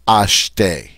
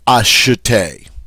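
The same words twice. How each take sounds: First: The middle e is silent, not pronounced. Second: The middle e is sounded as a vowel. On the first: The speaker calls it right. "I say ashte. All right? So this E in the next to the last syllable is mute, silent" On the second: The speaker calls it wrong. "I don't say ashte because this E is mute"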